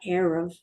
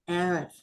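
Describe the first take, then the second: First: The r is a plain front r sound. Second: The r is rolled at the back of the throat. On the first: The speaker calls it wrong. "It's not erev" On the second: The speaker calls it right. "try to keep it more rolled in the back"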